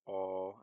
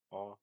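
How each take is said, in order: First: "all" as one long held vowel; drawn-out, loud long vowel in "all". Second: "all" with a short vowel as in German Gott; "all" as a brief, open German o. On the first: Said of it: "it's a long vowel". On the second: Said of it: "like in German Gott". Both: Shown as a demonstration.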